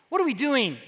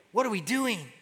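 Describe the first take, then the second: First: Higher-pitched imitation of second thoughts; mock doubt. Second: Softly voiced self-questioning; quiet realization. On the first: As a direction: act out someone about to give up. Mocks what they didn't say. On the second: Retells lepers' sincere self-reproach.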